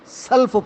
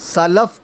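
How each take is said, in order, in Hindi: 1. इस शब्द को दबाकर एक अक्षर में बोला गया है, salf। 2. इस शब्द में दो अक्षर हैं, sa-laf।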